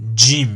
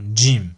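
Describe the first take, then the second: First: It starts with a d before the soft sound. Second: It starts with a d before the soft sound.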